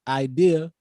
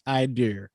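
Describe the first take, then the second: First: The word ends in a plain vowel. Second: The word ends with an added R sound.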